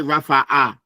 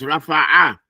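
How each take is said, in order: First: The middle consonant is a plain glottal stop. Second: The middle consonant is a throaty ayn. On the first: The speaker calls it wrong. "don't read it like it's a hamza. Don't say rafa'a" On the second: The speaker calls it right. "It's rafa'a. Pronounce those ayns"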